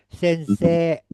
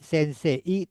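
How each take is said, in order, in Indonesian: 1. Vokal terakhir adalah e panjang yang stabil. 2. Vokal terakhir meluncur dari e ke i. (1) "Jadi E-I-nya jadi dua ya. E-nya dua" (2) "dibacanya tidak sensei"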